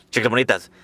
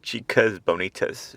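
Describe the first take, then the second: First: Chicas Bonitas in a Spanish accent; mock Spanish accent on Chicas Bonitas; Spanish accent pronunciation. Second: Chicas Bonitas slow, with a swaying rhyme; slow, rhythmic Chicas Bonitas. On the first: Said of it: "not meant to be said with that Spanish accent". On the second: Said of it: "It's meant to be said". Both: Shown as a demonstration.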